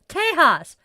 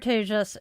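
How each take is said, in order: First: The J is said like an h. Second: The J is said like an English j. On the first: The speaker calls it wrong. "That is pronouncing it in Spanish" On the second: The speaker calls it right. "Sanskrit actually pronounces the J like a J"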